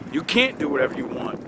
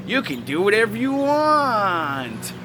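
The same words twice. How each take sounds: First: Said in the usual way. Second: Slow, sing-song mockery of "You can do whatever you want"; mock naive parent. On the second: Mocking permissive parents' advice.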